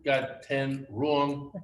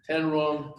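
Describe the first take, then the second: First: Slow got ten wrong, leaning hard on wrong; stress on wrong. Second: Ten wrong, with the weight on ten; stress on ten. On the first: Telling the crowd about the failed test, stressing wrong. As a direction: drag it out and land on wrong. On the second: Repeating the score to the crowd, stressing ten. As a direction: hit ten, the number of misses. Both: Shown as a demonstration.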